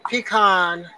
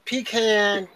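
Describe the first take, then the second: First: Pecan as pee-KAHN, open AH; pecan, AH version. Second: Pecan as pee-KAN, rhyming with can; flat short A at the end of pecan; pecan, AN version. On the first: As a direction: end pecan to rhyme with dawn. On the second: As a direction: demonstrate pecan ending like can. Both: Shown as a demonstration. Showing both ways to say pecan.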